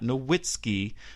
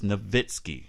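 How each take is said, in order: First: The W is pronounced as a W sound. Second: The W is pronounced as a V sound. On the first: The speaker calls it wrong. "It is not Nowitzki, as I have heard sports commentators call him" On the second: The speaker calls it right. "the correct pronunciation of his last name is Nowitzki. He's German, so the W has the V sound"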